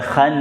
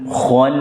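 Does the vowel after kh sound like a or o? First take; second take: a; o. First: The vowel after kh sounds bright, like a. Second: The vowel after kh sounds dark, like o. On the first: The speaker calls it wrong. "bukan khan pakai a" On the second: The speaker calls it right.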